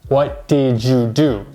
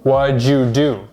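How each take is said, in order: First: The word 'did' is said in full. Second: The word 'did' is reduced to a 'd' sound. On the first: "to say" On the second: "So we just say"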